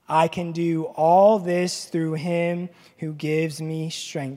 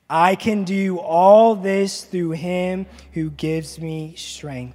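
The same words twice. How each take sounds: First: It is read in a plain, ordinary way. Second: It is read with strong conviction.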